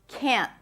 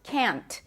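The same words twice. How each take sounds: First: The final T is held, the N stops abruptly. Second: The final T is released with a pop. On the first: "expect to hear that nasal sound" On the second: "A lot of native speakers pronounce it like that with a pop T"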